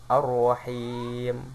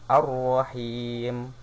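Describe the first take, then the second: Both takes have the same delivery.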